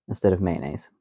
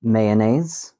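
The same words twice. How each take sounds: First: Mayonnaise said man-aise; two-syllable way. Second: Mayonnaise said may-oh-naise, louder, rising; three-syllable way. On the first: Host naming the short man-aise. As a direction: clip mayonnaise to two beats. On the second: Host showing may-oh-naise. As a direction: stretch Mayonnaise into three beats. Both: Shown as a demonstration.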